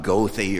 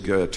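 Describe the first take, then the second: First: The name is pronounced the American way. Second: The name is pronounced the German way. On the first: The speaker calls it wrong. "it's not Goethe or some way that most Americans pronounce it" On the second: The speaker calls it right. "it is Goethe"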